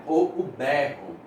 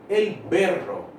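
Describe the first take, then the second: First: "berro" said the Brazilian way, with a throaty h-like rr and an open e; "o berro" in plain Brazilian Portuguese, rr breathed like an h; Portuguese pronunciation. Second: "El berro" said the Spanish way, with a tapped r in "berro"; "El berro" in Spanish, with a light tapped r and a closed e; Spanish pronunciation. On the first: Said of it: "A gente fala berro". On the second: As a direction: say "El berro" as a Spanish speaker would, crisp single-tap r. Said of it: "Ou o berro. A gente fala berro". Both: Shown as a demonstration.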